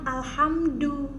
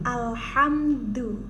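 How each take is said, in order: First: The d is a plain, ordinary d sound. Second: The d is soft and lisp-like, tongue behind teeth. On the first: The speaker calls it wrong. "tadi itu Jeff masih bacanya alhamdu" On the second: The speaker calls it right. "sekarang dibunyikan"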